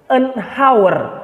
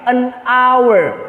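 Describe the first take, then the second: First: The h sound at the start is pronounced. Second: The h sound at the start is silent. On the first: The speaker calls it wrong. "bukan an hour" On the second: The speaker calls it right. "tapi an hour ... Hanya itu is not pronounced"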